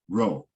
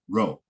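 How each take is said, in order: First: The vowel is rushed and clipped short. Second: The same.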